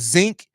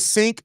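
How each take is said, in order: First: The word begins with a z sound. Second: The word begins with an s sound. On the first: The speaker calls it wrong. "a zinc, you're stupid" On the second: The speaker calls it right. "if you call a sink"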